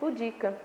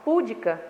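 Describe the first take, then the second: First: The stress is on the second syllable. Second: The stress is on the first syllable. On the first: The speaker calls it right. "mas o certo é pudica / a sílaba tônica é no di" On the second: The speaker calls it wrong. "A maioria das pessoas fala púdica"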